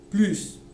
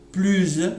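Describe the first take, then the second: First: The word ends with an s sound. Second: The word ends with a z sound. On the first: "il y a le S" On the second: "il y a le S, mais avec un son Z et sera employé dans les liaisons"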